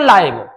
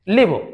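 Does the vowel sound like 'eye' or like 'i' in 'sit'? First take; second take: eye; short i. First: The vowel is long, like 'eye'. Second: The vowel is short, like 'i' in sit. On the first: It is used as an adjective. "अगर इसको adjective के रूप में use करेंगे तो ये हो जाएगा लाइव" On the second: It is used as a verb. "लिव तब है जब हम वर्ब के रूप में यूज करें"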